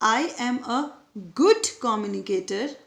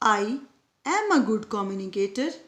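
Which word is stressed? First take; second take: good; am. First: The stress falls on the word 'good'. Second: The stress falls on the word 'am'.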